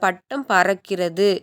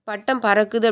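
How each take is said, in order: First: The verb ends in a longer 'kirathu' sound. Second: The verb ends in a short 'kuthu' sound. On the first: This is the formal written form. "எழுத்து வழக்கில்" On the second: This is the everyday spoken form. "சொல்கிறத"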